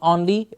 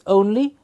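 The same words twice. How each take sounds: First: The first vowel is an open 'or' sound. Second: The first vowel is a closer 'oh' sound. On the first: The speaker calls it wrong. "mixed up with the or sound" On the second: The speaker calls it right. "close the mouth a bit and say oh"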